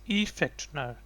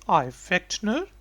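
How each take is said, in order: First: The first vowel sounds like 'ee'. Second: The first vowel sounds like 'eye'. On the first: This is the regular Dutch reading of the spelling. "I is pronounced as E. So in Dutch, if it's written like this, then I would say" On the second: This is the owner's own way of saying the name. "But because it's my name, therefore I'm saying"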